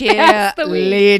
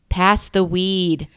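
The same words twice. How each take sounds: First: It is screamed out loudly. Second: It is said quietly and subtly.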